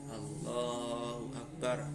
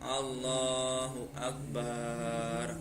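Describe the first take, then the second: First: The lah syllable is drawn out long. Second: The bar syllable is drawn out long. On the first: The speaker calls it right. "Yang boleh dipanjangkan itu lafaz lamnya" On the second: The speaker calls it wrong. "Kalau dipanjangkan contohnya"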